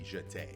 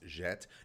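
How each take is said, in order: First: The word ends with an 'ay' vowel. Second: The word ends without an 'ay' vowel. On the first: The speaker calls it right. "the actual correct term would be uh, would be jeté" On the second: The speaker calls it wrong. "It would be pronounced jet"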